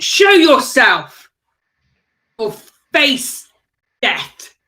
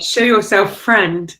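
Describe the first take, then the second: First: Slow, forceful challenge, each word set apart; commanding shout. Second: Milder, friendlier version of the challenge; softer. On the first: Player cracking a whip at an invisible foe, commanding shout. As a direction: call out a threat to a hidden foe. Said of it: "whip it on the ground and shout". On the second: Player redoing a threat to an invisible foe, softer and friendlier. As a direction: coax the hidden foe out more gently. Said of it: "should have been a bit softer and said". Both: Acted.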